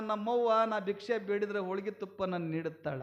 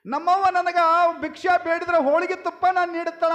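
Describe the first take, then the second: First: Low, soft voice of private thought; quiet musing. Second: High, loud, brisk storyteller's delivery; loud declaration. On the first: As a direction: muse softly to yourself. Same thought told softly, then loudly. (ಮೆಲುದನಿಯ ಸ್ವಗತ) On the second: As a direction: project it quickly to the whole crowd. Same thought repeated loudly to audience. (ಏರುದನಿಯ ಘೋಷಣೆ) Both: Acted.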